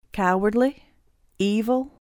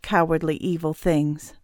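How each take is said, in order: First: "Cowardly? Evil?" each rising as its own question; questioning echo. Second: "cowardly, evil" stated as a charge, in a level-to-falling tune; accusing. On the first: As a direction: throw back "Cowardly" and "Evil" with a lift and a pause between. Villain questions the words thrown at him. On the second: Mother's accusation, echoed back after. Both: Acted.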